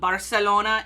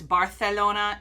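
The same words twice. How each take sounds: First: The c sounds like an s. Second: The c sounds like a th. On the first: "in Mexican Spanish" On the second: "in Castilian Spanish"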